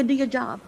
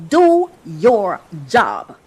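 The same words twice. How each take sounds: First: Quiet throwaway do your job; muttered order. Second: Deliberate, heavy do your job; slow firm order. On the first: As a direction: do your job said softly under the breath. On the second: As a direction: Do your job drawn out slowly, each word weighted. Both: Shown as a demonstration.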